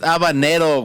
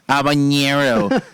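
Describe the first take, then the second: First: The middle consonant is a plain 'n' sound. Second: The middle consonant is an 'ny' sound. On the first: The speaker calls it right. "It's habanero, way. Fucking get it right" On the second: The speaker calls it wrong. "add ñes to everything. Like I hate when people go like habanero"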